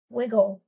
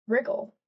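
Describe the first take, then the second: First: "Wiggle" said without an r, w straight into i; trying wiggle. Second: "Wriggle" with an r after the w, rising; trying wriggle. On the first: Reader testing which word fits, "Wiggle" with no r. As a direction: say "Wiggle" with a plain w start. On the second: Reader testing which word fits, "Wriggle" with the r. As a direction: say "Wriggle" sounding the r. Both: Shown as a demonstration.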